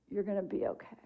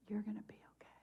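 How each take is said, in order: First: Softly voiced, tender retold comfort; soft reassurance. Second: Very soft, tender whisper; whispered reassurance. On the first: Friend looks over to comfort the widow, softly reassuring. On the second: Retold or imitated. Friend comforts the widow after their laughter, whispering reassurance. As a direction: let the comfort drop to a bare whisper.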